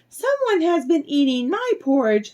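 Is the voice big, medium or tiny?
tiny. It is said in a tiny, little voice. A small character is speaking. "cried out in his little tiny voice"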